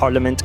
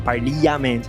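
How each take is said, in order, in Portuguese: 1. A vogal do meio é reduzida a schwa. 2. A vogal do meio é uma vogal plena. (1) "a pronúncia é com schwa" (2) "Também você quer falar parliament, não quer?"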